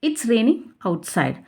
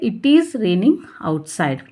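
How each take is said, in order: First: 'It is' is contracted to one syllable. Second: 'It is' is said as two full words. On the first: "pronounce ಮಾಡಬೇಕಾದ್ರೆ ಇಟ್ಸ್ ಅಂತ ಮಾಡಬೇಕು" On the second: "ನಾವು ಓದಬೇಕಾದ್ರೆ ಇಟ್ ಈಸ್"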